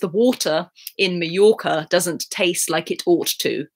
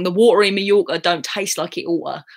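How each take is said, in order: First: It is said in an RP accent. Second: It is said in a Cockney accent.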